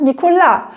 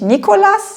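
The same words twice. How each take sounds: First: The stress is on the last syllable. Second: The stress is on the first syllable. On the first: The speaker calls it right. "im Französischen ist ja auch immer die Betonung hinten auf dem Wort" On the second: The speaker calls it wrong. "Da heißt es ja nicht Nicolas"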